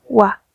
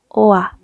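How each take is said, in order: First: The vowel begins with a u sound. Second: The vowel begins with an o sound. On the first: The speaker calls it right. "es ua" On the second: The speaker calls it wrong. "No oa"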